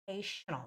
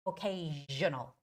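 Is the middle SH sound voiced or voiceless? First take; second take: voiceless; voiced. First: The middle sound is a voiceless SH. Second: The middle sound is a voiced SH. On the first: The speaker calls it wrong. "It's voiceless sound" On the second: The speaker calls it right. "you have to make a voiced S H"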